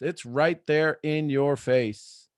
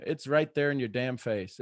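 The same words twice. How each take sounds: First: Slowed right down, leaning on "right"; slow emphasis. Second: Said in the usual way. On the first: Shown as a demonstration. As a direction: spell it out slowly, hitting "right". Repeated line, second slowed.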